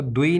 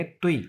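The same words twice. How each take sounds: First: "दुई" starting on a voiced d; d sound, the wrong way. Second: "तुई" starting on an unvoiced t; t sound, the correct way. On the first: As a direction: demonstrate the mistaken "दुई" with a d. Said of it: "इसको दुई नहीं हम कहेंगे". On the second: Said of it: "डी को जो है वो ते से प्रोनाउंस करेंगे". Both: Shown as a demonstration.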